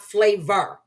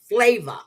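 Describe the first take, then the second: First: The name ends with an r sound. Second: The name ends without an r sound. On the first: The speaker calls it wrong. "I was pronouncing her name wrong" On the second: The speaker calls it right. "Her name is Flava"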